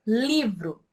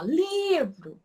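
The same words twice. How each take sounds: First: Said in the usual way. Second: "livro" with a long, high LI, then dropping; slow, high-pitched stress on the start of "livro"; stretched first syllable. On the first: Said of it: "quando você grita pela palavra livro". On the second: Shown as a demonstration. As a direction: draw out the LI in "livro". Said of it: "o li eu falo com mais extensão".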